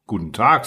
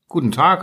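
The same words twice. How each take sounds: First: Said in the usual way. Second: Higher, politely lifted greeting. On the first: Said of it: "sagte der Fuchs". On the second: A narrator's reading. Little prince returns the fox's greeting, politely. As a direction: answer politely, pitched up with a lift at the end. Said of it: "antwortete höflich der kleine Prinz".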